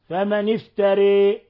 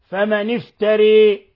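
First: The final vowel leans only slightly toward 'ee'. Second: The final vowel leans strongly toward 'ee'. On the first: "وقللها ورش بلا خلاف" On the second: "أمالها حمزة والكساء وخلف وأبو عمرو البصري إمالة كبرى فمن افتري هكذا يقرأها"

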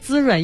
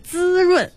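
First: The word is said without strong stress. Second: The word is said with strong stress. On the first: The speaker calls it wrong. "这个不是滋润" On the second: The speaker calls it right. "一定要重音是滋润"

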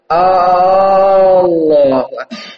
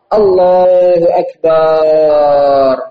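First: The opening vowel is lengthened. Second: The final syllable is lengthened. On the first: It asks whether God is the greatest. "Jangan dipanjangkan hamzahnya" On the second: It refers to a drum. "Jangan pula akbarnya barnya panjang"

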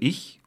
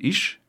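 First: The word ends with a soft ch sound. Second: The word ends with an sh sound. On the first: "Anstelle von 2 Lauten, also ich und isch" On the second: "übernahmen die Hessen nur das isch"

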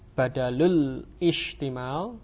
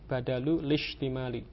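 First: Ishtimal starts with its own separate vowel sound. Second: The l runs straight into shtimali without a break. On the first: The speaker calls it wrong. "bukan badalul ishtimal" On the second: The speaker calls it right. "hamzahnya wasal, tidak diucapkan"

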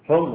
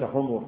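First: The word is said as humr, one short vowel. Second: The word is said as humur, two short vowels. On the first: Red ones, plural of red. The speaker calls it right. "حمر جمع أحمر" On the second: A different word, not the plural of red. The speaker calls it wrong. "وليس حمر"

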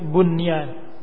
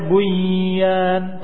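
First: The n sound is pronounced clearly before the y. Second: The n sound is merged into the following y. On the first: The speaker calls it right. "tapi bunyan, dibaca dengan idhar jelas" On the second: The speaker calls it wrong. "tidak dibaca bunyan"

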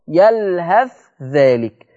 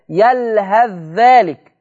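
First: The 'th' sound is pronounced clearly before the 'dh'. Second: The 'th' sound merges fully into the following 'dh'. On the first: This follows the Warsh reading. "ورش يظهر ... سمعين الصوت" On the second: This follows the Hafs reading. "ان احنا هندخل الثاء في الذال"

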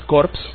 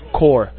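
First: The word ends with audible p and s sounds. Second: The word ends without p and s sounds. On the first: It would mean a dead body. The speaker calls it wrong. "la pronunciación no es Corps, que sería cadáver" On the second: It means a body of people, a unit. The speaker calls it right. "la pronunciación es Corps. Aunque se escribe C-O-R-P-S, se pronuncia C-O-R-E"

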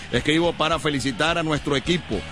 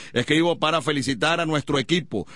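Both takes have the same delivery.

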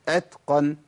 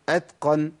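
Both takes have the same delivery.

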